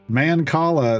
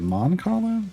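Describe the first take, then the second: First: The first syllable sounds like 'man'. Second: The first syllable sounds like 'mon'.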